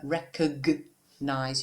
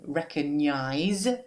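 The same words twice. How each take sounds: First: The g and n sounds are separated. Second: The g and n sounds run together. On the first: The speaker calls it right. "but recognize. You have to separate the G from the N" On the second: The speaker calls it wrong. "not recogn recognize"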